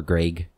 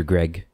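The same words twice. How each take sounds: First: Greg with an ay sound, like Graig; long-a pronunciation. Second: Greg with a short e, as in egg; short-e pronunciation. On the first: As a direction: say "Greg" to rhyme with vague. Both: Shown as a demonstration. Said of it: "However you say it".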